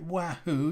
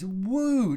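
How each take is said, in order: First: The name is said as 'wahoo'. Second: The name is said as 'woo'. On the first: The speaker calls it wrong. "You don't you don't pronounce it Wahoo, you idiot" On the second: The speaker calls it right. "It's woo"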